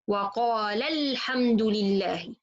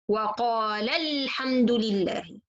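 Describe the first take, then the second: First: The voice rises and stresses the lam of qala. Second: The voice rises and stresses the lam of qala.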